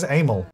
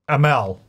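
First: "Amel" said as AY-mel, stress on the first syllable; accented name. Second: "Amel" said as uh-MEL, stress on the second syllable; "Amel" as uh-MEL, last syllable stressed; corrected name. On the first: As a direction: say "Amel" with a long AY at the start. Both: Shown as a demonstration. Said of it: "I'm just gonna say that differently".

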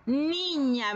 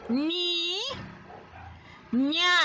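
First: Said in the usual way. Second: "Ni, ña" higher, two held syllables with a pause; split into syllables. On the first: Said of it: "Vamos a pronunciar la palabra". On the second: Shown as a demonstration. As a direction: model "Ni, ña" piece by piece for repeating. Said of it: "así que repite".

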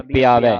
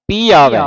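First: ਪਿਆਵੇ with the sihari sound, the wrong way; wrong pronunciation. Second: ਪੀ ਆਵੇ split into two words, a touch louder; correct pronunciation. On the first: Teacher showing a student the wrong reading ਪਿਆਵੇ. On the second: Teacher showing the student the correct split ਪੀ ਆਵੇ. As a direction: separate ਪੀ from ਆਵੇ clearly. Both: Shown as a demonstration. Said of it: "ਪਿਆਵੇ ਨਹੀਂ ਪੜ੍ਹਨਾ".

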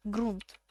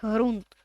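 First: Ґрунт with a hard g, as grunt, said quieter; hard g correction. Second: Ґрунт with a soft Ukrainian г, like hrunt; soft h pronunciation. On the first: (ґрунт з твердим ґ, тихіше) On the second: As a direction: say ґрунт as hrunt, breathy h sound. (ґрунт з м'яким г, як «грунт») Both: Shown as a demonstration.

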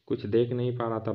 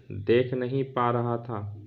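First: Quick rushed retelling; fast. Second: Said in the usual way. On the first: A narrator's reading. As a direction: rattle it off quickly. Narrator repeats phrase faster.

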